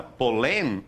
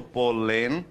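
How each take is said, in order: First: Polém with the final -lém stressed; stress on last syllable. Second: Said in the usual way. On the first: Shown as a demonstration. Teacher showing polém as if it were aguda, stressed at the end. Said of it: "se fosse aguda". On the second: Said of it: "de modo neutro".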